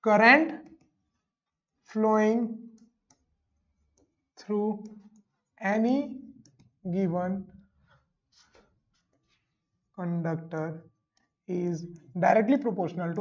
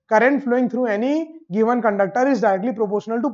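First: It is said slowly and deliberately. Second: It is said at a normal, quicker pace.

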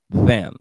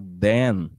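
First: The word starts with the tongue between teeth. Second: The word starts with a D sound. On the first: The speaker calls it right. "você põe a língua entre os dois dentes da frente" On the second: The speaker calls it wrong. "as pessoas entendem com som de D"

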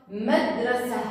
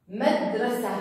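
The two takes are said the same way.

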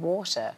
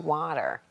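First: It is said with a British accent. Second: It is said with an American accent. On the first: The child had picked up British speech. "She was sort of saying things like bath and water" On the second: The child has gone back to American speech. "now she's back to water"

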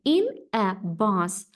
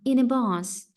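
First: The words are said separately, not linked. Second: The words are linked smoothly into one unit. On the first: The speaker calls it wrong. "не in a bus" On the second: The speaker calls it right. "Постарайтесь злитно прочитати"

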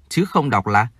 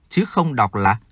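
The two takes are said the same way.

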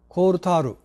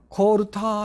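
First: The word ends with an added 'ru' syllable. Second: The word ends on a long 'taa' sound. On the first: This is the form used in Japan. "タールって言うんですよ" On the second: This form is not used in Japan. "コールターって言わないですね、日本で"

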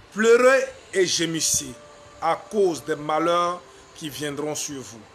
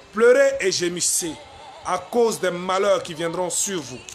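No difference in how they are said.

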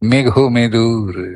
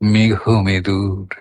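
First: It is said on bright, natural pitch notes. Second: It is said on soft, lowered pitch notes. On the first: The speaker calls it wrong. "এরকম শুদ্ধ পর্দা দিয়ে সবগুলোর ধ্বনিগুলোর অনুরণন ঘটাচ্ছি না" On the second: The speaker calls it right. "সব কোমল পর্দা"

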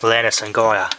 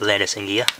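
First: The last name is said as two syllables. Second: The last name is said as one syllable. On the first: The speaker calls it right. "That's the correct pronunciation of the name" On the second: The speaker calls it wrong. "not Landis and Gear"

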